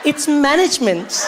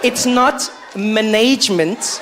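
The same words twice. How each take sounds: First: "management" as MAN-ij-ment; higher, slow "management", stressing the first syllable MAN; corrective pronunciation. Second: "management" as muh-NAYJ-ment; wrong pronunciation. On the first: Listener correcting Jabu, "management" as MAN-ij-ment. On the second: Listener correcting Jabu, mimicking "management" as muh-NAYJ-ment. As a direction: mimic "management" slowly, stressed on the long middle NAYJ. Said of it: "How people pronounce things". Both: Acted.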